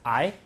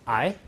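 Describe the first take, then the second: Both takes have the same delivery.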